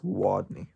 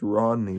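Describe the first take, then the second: First: The name begins with a W sound. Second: The name begins with an R sound. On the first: The speaker calls it wrong. "but he says Wadney" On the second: The speaker calls it right. "His real name is Rodney"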